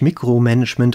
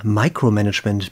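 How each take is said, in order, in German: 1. Das Wort wird mit deutschen Lauten ausgesprochen. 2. Das Wort wird mit englischen Lauten ausgesprochen.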